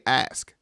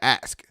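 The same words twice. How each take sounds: First: It is said with the standard 'ask' sound. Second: It sounds like the word for a chopping tool.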